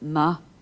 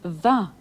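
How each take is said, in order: First: The word begins with an m sound. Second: The word begins with a v sound. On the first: It follows a masculine noun, as in a fine day. "the ma in va, ma, a fine day" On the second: It follows a feminine noun, as in a fine night. "the adjective ma is aspirated ... the sound changes to va"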